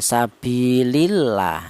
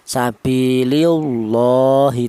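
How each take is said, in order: First: The L in Allah sounds light and thin. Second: The L in Allah sounds heavy and thick. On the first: The speaker calls it right. "cara bacanya tipis ya" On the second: The speaker calls it wrong. "Tafkhim itu tebal, tidak boleh dibaca seperti ini ya"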